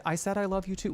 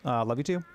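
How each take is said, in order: First: Mock imitation. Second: Said in the usual way. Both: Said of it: "Why did you say it like that?".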